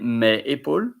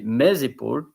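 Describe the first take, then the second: First: The S is silent, with no link to épaules. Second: The S is sounded and linked into épaules. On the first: The speaker calls it wrong. "You don't say mes épaules, M E S" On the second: The speaker calls it right. "there is a link to make pronunciation between the S and the vocal"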